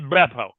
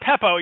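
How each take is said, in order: First: The word begins with a voiced B sound. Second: The word begins with a voiceless P sound. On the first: The speaker calls it right. "Two B's" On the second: The speaker calls it wrong. "Not Peppo. You're talking like Peppo Bismol"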